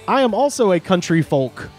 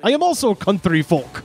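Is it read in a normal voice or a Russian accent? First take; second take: normal voice; Russian accent. First: It is read in a plain, normal voice. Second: It is read in a put-on Russian voice.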